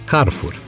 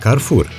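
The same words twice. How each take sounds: First: The stress is on the first syllable. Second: The stress is on the second syllable. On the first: The speaker calls it wrong. "cu accent pe prima silabă" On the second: The speaker calls it right. "cu accentul pe a doua silabă, cum ar fi corect"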